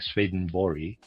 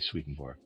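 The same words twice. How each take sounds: First: The name is said in a native-style pronunciation. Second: The name is said in an anglicized pronunciation. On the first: "properly pronounced something like" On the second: "in the regular way"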